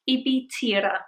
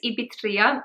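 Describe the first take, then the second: First: The name ends with a 'tira' sound. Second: The name ends with a 'tria' sound. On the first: The speaker calls it right. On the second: The speaker calls it wrong. "I always pronounce it incorrectly"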